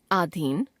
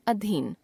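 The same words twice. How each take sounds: First: आधीन opening on long आ; wrong pronunciation. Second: Said in the usual way. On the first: Shown as a demonstration. Teacher showing a common error, आधीन with long first vowel. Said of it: "अशुद्ध". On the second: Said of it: "शुद्ध".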